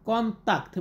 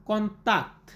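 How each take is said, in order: No difference in how they are said.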